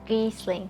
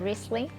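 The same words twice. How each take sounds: First: The word is said with a German-style R. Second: The word is said with an English-style R. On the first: "Germany German way would be" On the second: "if I pronounce it my way, I would say"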